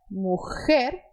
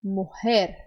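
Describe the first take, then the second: First: Mujer with a harsh scraped J; strong Argentine J. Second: Mujer with a soft breathy h; soft Costa Rican J. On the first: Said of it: "Olha a diferença". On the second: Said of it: "um costarricense diria". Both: Shown as a demonstration.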